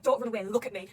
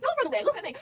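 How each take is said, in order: First: Firm, louder mock telling-off; mum-like scolding. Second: High, loud mock telling-off; scolding mum. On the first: Mary telling someone not to run away, firm mock scolding. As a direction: scold lightly, as to a kid. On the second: Mum scolding a kid for running off, high and loud. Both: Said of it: "scolding like a mum would scold a kid".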